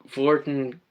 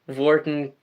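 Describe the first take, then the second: Both takes have the same delivery.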